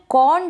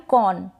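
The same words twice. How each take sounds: First: कॉर्न with the R lightly sounded; one-syllable कॉर्न with a faint R; slight R. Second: कॉर्न said as kawn, no R; one-syllable कॉर्न, vowel straight into N; silent R. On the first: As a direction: put just a touch of R in कॉर्न. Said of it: "मैंने आर को थोड़ा सा pronounce किया है". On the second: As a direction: drop the R completely in कॉर्न. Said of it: "तो यहाँ पर नहीं किया". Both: Shown as a demonstration.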